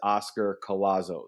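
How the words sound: The name is said with an American English accent. This is how the name goes in America. "my name i- in America is"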